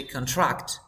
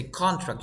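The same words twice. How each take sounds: First: Con-TRACT, end-stressed contract; stress on second syllable. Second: CON-tract, front-stressed contract; stress on first syllable. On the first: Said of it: "it's the verb". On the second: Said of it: "You don't say contract". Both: Shown as a demonstration.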